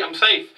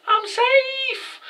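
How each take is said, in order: First: Said in the usual way. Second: Sing-song taunt, pitched far up; mocking squeaky high voice. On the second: Playmaker taunting, acted quote.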